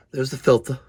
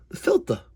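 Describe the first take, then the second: First: Said in the usual way. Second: Much higher, squeaked "The filter"; squeaky high surprise. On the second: Real, not acted.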